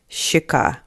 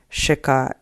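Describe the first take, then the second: First: It begins with a long soft 'shch' sound. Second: It begins with a plain 'sh' sound. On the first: "So the example is щека" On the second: "if you do say sh instead of sh ... if you say щека, it's close enough"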